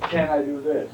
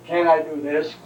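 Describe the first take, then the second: First: "Can" stressed, falling at the end. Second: "I" stressed, question rising at the end. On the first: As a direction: hit "Can" and let "Can I do this?" fall. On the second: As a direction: lean on "I" and let "can I do this?" rise. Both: Shown as a demonstration. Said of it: "So one I'm emphasizing now".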